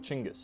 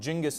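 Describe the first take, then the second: First: The name begins with a 'ch' sound. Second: The name begins with a 'j' sound. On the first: This is the original form of the title. "instead of Chinggis" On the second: This is the form that passed through Persian and Arabic. "that initial ch got reinterpreted as a j. So like Genghis"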